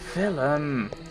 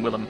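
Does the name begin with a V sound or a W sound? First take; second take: V sound; W sound. First: The name begins with a V sound. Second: The name begins with a W sound. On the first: "I'm going to pronounce it with a V" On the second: "everyone else is calling him Willem"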